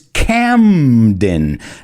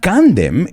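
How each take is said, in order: First: The M sound comes before the N sound. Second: The N sound comes before the M sound. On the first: The speaker calls it right. "it's Camden. La M viene antes que la N" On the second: The speaker calls it wrong. "but it's not Camden"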